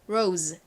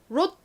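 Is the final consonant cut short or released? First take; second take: released; cut short. First: The final z sound is released separately. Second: The final consonant is clipped off short. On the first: The speaker calls it right. "따로 발음이 되죠" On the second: The speaker calls it wrong. "롯 이렇게 받침으로 들어가는 게 아니라"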